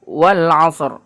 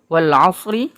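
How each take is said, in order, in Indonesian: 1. Kata terakhir berakhir dengan bunyi r mati. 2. Kata terakhir berakhir dengan vokal pendek i. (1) "Ra-nya tetap disentuh, tapi fathahnya tidak dibaca" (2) "Ini wal asri"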